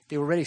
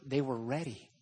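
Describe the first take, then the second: First: "ready" stressed, louder, with a rise. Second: Said in the usual way. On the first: Shown as a demonstration. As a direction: lean into "ready". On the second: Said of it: "what he says is they were".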